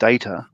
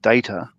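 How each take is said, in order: First: It uses a non-Australian pronunciation of the word. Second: It uses a non-Australian pronunciation of the word.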